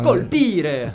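It is said with an Italian accent.

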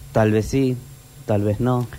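It is said in a serious, grave tone.

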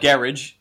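It is said the British way. "as you would say"

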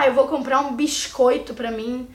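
The s in biscoito sounds like sh. This is how the speaker's own region says it. The speaker calls it wrong. "A gente puxa o S, mas não um S bom de se ouvir... vira assim, um X"

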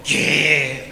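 It sounds like a scolded reply.

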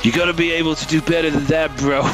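It is said in an imitation of another man's voice.

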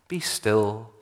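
It is said softly and warmly. It invites the listener to quiet contemplative prayer. The speaker calls it wrong. "often read as a loving, gentle invitation"

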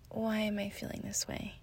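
The question sounds gentle and curious. She is openly wondering about the feeling. The speaker calls it right. "from a place of curiosity"

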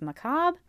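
The word is said the American English way. "Or here in the U.S., apparently it would be pronounced"

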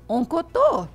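It is clipped in a Mineiro accent.

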